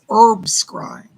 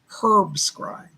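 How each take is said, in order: First: The word herb starts without an H sound. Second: The word herb starts with an H sound. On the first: "In American English, we don't say the H" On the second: "for you British people"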